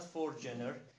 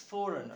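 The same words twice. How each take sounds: First: A g sound is pronounced in the middle. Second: No g sound is pronounced in the middle. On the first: The speaker calls it wrong. "It is not foreigner" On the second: The speaker calls it right. "It is foreigner. The g is silent"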